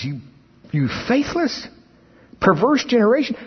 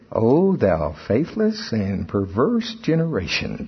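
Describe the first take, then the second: First: It is said with anger in the voice. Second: It is said calmly, without anger.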